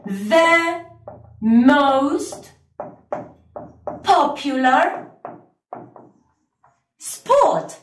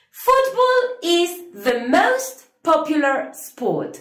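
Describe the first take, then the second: First: Slow English model, pausing between The, most, popular, sport; teacher modelling the answer for students; slow model sentence. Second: Sung, lilting singsong English sentence; sung, teacher giving the full answer in a lilting voice; sung, singsong model sentence. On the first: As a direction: read it out slowly, word by word. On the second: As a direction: sing the answer out lightly. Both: Shown as a demonstration. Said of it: "vamos a decir".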